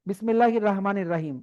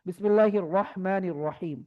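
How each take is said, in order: First: The first vowel of Rahim is a thin, long 'aa'. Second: The first vowel of Rahim is heavy and rounded. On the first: The speaker calls it wrong. "এরকম পড়া যাবে না" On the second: The speaker calls it right. "র হবে, র জবর র"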